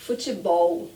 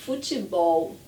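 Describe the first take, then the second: No difference in how they are said.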